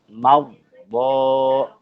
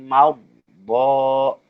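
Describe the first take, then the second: No difference in how they are said.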